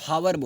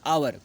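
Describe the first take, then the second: First: The word starts with an h sound. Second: The word starts with a vowel sound. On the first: The speaker calls it wrong. "कुछ लोग इसको हावर बोलते हैं, हावर नहीं होता है" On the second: The speaker calls it right. "H silent रहता है"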